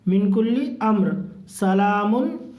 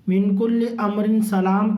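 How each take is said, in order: First: The reader stops after amr, then links salamun onward. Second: The reader stops right after the word salam. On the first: "नहीं तो मिन कुल्ली अम्र क्या बोलेंगे" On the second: "अगर रुक रहे हैं तो अमरिन सलाम बोल के रुकना है"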